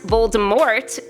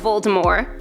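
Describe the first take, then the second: First: The final T is clearly pronounced. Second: The final T is silent. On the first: The speaker calls it wrong. "Voldemort was said all throughout the films" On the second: The speaker calls it right. "The true pronunciation drops the T at the end of the name in true French fashion"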